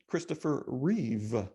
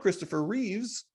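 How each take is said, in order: First: The surname ends without an s sound. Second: The surname ends with an s sound. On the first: The speaker calls it right. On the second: The speaker calls it wrong.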